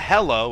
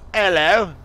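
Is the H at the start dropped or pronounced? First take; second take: pronounced; dropped. First: The word starts with a clear H sound. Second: The word starts with no H sound. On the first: The speaker calls it wrong. "It's not hello" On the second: The speaker calls it right. "You don't pronounce the first like the H"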